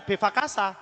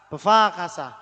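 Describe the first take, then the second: First: Befakasa with every syllable even and short; wrong pronunciation. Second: Befakasa with the be barely sounded; correct pronunciation. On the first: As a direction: read "befakasa" as a full be-fa-ka-sa. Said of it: "bacanya bukan befakasa". (befakasa dibaca rata dengan "be" penuh) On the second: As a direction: swallow the first syllable of "befakasa", lean on fa. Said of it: "Jadi kayak nggak bunyi". (befakasa dengan "be" nyaris tak berbunyi) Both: Shown as a demonstration.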